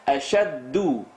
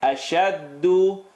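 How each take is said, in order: First: Ashaddu with a North African dal at the gums; North African Arabic dialect. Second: Ashaddu, slow, with the dal on the teeth; Ashaddu, tongue down at the teeth, slowly. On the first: Retold or imitated. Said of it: "a North African dialect". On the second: Shown as a demonstration. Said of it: "down lower to the teeth".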